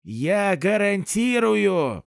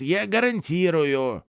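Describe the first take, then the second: First: Slow, drawn-out «гарантирую» with strong stress; emphatic repeat. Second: Said in the usual way. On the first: Acted. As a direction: lean hard on «гарантирую», slowly. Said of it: "постучал себя по груди".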